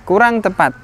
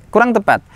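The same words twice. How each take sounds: Both takes have the same delivery.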